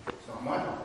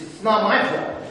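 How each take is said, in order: First: Whispered very softly. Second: Said in the usual way. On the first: Shown as a demonstration. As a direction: breathe the excuse out as a whisper. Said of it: "repeated as a whisper". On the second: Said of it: "first take, voiced".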